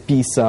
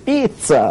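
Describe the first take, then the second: First: It is said in a Sri Lankan accent. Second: It is said in an Italian accent.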